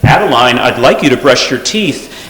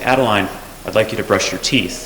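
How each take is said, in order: First: It is said at a higher, more intense pitch. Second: It is said at a calm, ordinary pitch. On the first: The request is being repeated with growing insistence. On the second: This is the first, gentle request.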